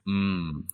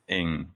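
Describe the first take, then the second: First: It is a closed-mouth hum with no vowel. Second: It is said with a vowel, like 'ing'. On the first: This is how it is said in Hong Kong. "I would te- tell people as a hum" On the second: This is how most people in America say it. "Most of the people in America will uh, pronounce it Ing"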